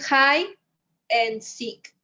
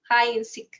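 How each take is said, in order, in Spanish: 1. Las palabras se dicen con pausas entre ellas. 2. Las palabras se dicen unidas, sin ninguna pausa. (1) "no puedes decir hide and seek, no hay una separación" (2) "es como junto"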